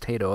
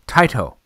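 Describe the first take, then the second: First: The first syllable does not sound like 'tie'. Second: The first syllable sounds like 'tie'. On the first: This is the version the speaker long assumed and still uses. The speaker calls it wrong. "I thought it was Tato as also" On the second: This is how the company itself says the name. The speaker calls it right. "Taito is probably the correct pronunciation"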